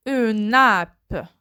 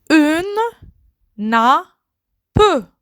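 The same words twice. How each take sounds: First: Said in the usual way. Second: Une, then nappe said as a separate slow syllable; syllabified. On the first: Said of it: "word said whole after split". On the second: Shown as a demonstration. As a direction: split "Une nappe" into two beats. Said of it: "word split into syllables". ("Une nappe" détaché syllabe par syllabe)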